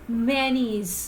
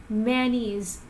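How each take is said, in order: No difference in how they are said.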